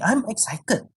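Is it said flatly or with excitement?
excitement. It is said with real excitement.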